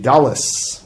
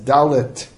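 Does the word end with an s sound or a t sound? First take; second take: s sound; t sound. First: The word ends with an s sound. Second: The word ends with a t sound. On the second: "writes it as dalet, with a tough"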